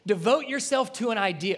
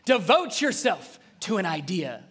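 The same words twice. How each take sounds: First: It is read in a plain voice. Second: It is said like a motivational speaker.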